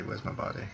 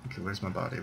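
First: Whispered to himself. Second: Said in the usual way. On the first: Real, not acted. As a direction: whisper it under your breath as you search. Repeats the search to himself.

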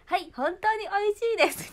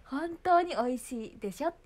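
First: Very high, loud polite recital; mother's model answer. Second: High, loud, slow scolding prompt; mother's correction. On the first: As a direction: drill the proper wording, falling at the end. (丁寧な手本を大声で言い切る口調) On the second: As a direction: correct the child with a rising, insistent end. (語尾を上げて言い直させる母親口調) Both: Retold or imitated. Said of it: "ママがずっと言ってる".

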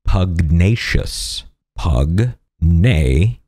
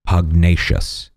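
First: Pugnacious drawn out very slowly, each syllable separate. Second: Said in the usual way. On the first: Shown as a demonstration. Host teaching the word of the day, very slow. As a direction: spell Pugnacious out slowly for the viewer. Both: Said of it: "The word of the day is pugnacious".

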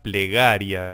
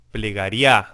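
First: Said in the usual way. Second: Plegaria said ple-ga-RIÁ, weight on final A; stress on last syllable. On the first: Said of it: "lo común sería plegaria". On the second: Shown as a demonstration. Teacher showing the class the song's misplaced accent, final-syllable stress on plegaria. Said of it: "se acentúa la última sílaba".

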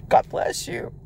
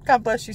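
First: Hushed whispered God bless you. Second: Said in the usual way. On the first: Real, not acted. Quiet blessing before a repeat.

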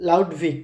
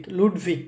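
First: "লাউডভিক" with an English "লাউ" diphthong; wrong English-style reading. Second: "লুডভিক" with a pure "লু" vowel; correct German reading. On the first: Teacher first shows the mistaken reading, "লাউডভিক" with "লাউ". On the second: Teacher corrects the name to the German reading, "লুডভিক" with "লু". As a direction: say "লুডভিক" with a clean short "লু". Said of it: "তার মানে লু". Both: Shown as a demonstration.

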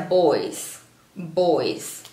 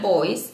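First: Put-on "boys" ending in buzzed Z, falling; slow "boys" with Z at the end; final Z sound. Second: Put-on "boys" ending in hissed S, rising; wrong final S. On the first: Teacher showing the correct way, "boys" with final Z. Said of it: "Trato de pronunciar la verdad con la Z". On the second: Teacher showing the mistake, "boys" with final S. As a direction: say "boys" with S instead of Z at the end. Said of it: "no se pronuncia boys". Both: Shown as a demonstration.

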